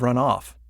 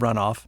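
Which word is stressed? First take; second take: off; run. First: The stress falls on the second word. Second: The stress falls on the first word. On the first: It is used as a verb. "They tend to be stressed on the second word" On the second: It is used as a noun. "put the stress on the first word"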